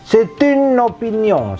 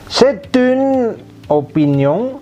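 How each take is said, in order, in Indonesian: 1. Kata-katanya disambung dengan lancar. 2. Kata-katanya diucapkan terpisah, tidak disambung.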